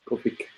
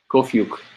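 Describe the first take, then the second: First: The name ends with an 'ik' sound. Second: The name ends with a 'yuk' sound. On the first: The speaker calls it wrong. "No, I said it wrong again" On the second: The speaker calls it right. "I don't know why the Yuk doesn't stay"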